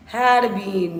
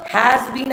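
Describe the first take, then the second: First: Said in the usual way. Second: "Has been" with HAS raised and louder; correcting, punch "Has" in "Has been"; stress on HAS. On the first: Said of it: "no beta, now incorrect". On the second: Shown as a demonstration. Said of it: "I said, has been".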